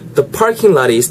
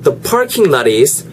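First: The words lot and is run together smoothly. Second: The words lot and is are said separately.

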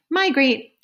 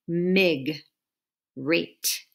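First: The first syllable is 'my', with a long i vowel. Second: The first syllable is 'mig', with a short i vowel. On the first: The speaker calls it right. "It's MI is the first syllable. My" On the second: The speaker calls it wrong. "if that had been part of the first syllable, it would say mig, rate. But it's not"

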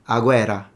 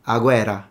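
First: The R sound is short, a single R. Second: The R sound is short, a single R.

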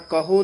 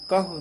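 First: The word ends in a long o vowel. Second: The word ends in a short, quick u vowel. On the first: The speaker calls it wrong. "ਕਹੋ ਨਹੀਂ ਕਹਿ ਦੇਣਾ ਹਾਹੇ ਹੋੜਾ ਲਾ ਕੇ" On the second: The speaker calls it right. "ਛੇਤੀ ਬੋਲਣਾ"

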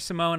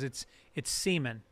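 First: The name is pronounced like 'Simone'. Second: The name is pronounced like the word 'semen'. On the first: The speaker calls it wrong. "Professor Simone" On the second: The speaker calls it right. "He goes, it's semen"

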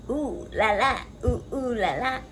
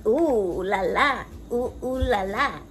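Both takes have the same delivery.

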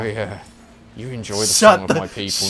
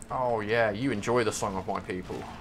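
First: It is said in a sensual, seductive way. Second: It is said in a plain, ordinary way. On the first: "If you want me to say it sensually, I can" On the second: "That wasn't sensual, though"

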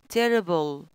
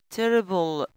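The two takes are said the same way.

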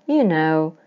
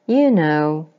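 Both takes have the same delivery.

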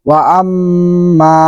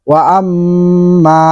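Both takes have the same delivery.

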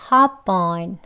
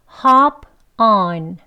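First: The two words are linked into one flow. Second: The two words are said separately, not linked. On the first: "이어서 발음하면" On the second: "연음하지 않고 각각 발음해 볼게요"

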